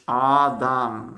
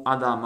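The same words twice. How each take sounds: First: "Adam" drawn out syllable by syllable, long first a; "Adam" stretched and louder, for learners; reading demonstration. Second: Said in the usual way. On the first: Shown as a demonstration. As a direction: sound out "Adam" as if following the letters. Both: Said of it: "attention on lit de droite à gauche".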